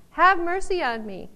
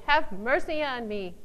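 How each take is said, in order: First: Loud and higher, earnest plea; crying out. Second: Said in the usual way. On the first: Pretend. Preacher shows how to cry out to God, loud. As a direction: cry it out with full need. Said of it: "we are really crying out". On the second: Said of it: "he cried the more a great deal".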